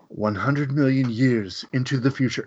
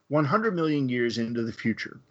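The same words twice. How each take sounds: First: It is said in a put-on narrator voice. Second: It is said in his own normal voice.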